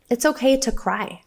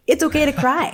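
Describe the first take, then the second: First: Said in the usual way. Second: Pitched higher, ending on a lift; higher rising okay to a child; gentle reassurance. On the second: Retold or imitated. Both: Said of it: "we tell him often".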